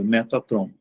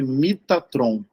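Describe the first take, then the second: First: The first syllable has an E vowel. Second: The first syllable has an I vowel. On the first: Later writings without Yud settled on this reading. "uma pronúncia com a vogal E" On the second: The early spelling with Yud suggests this reading. "não pode se pronunciar me, e sim mi"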